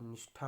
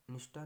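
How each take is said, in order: First: निष्ठा with aspirated ठा; correct pronunciation. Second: निष्ठा with unaspirated टा; wrong pronunciation. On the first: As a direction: say निष्ठा as "nishtha", with a puff. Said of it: "होता है". (निष्ठा में महाप्राण ठा बोलें) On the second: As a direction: say निष्ठा as "nishta", no puff. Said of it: "नहीं होता दोस्तों". (निष्ठा में ठा की जगह टा बोलें) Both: Shown as a demonstration.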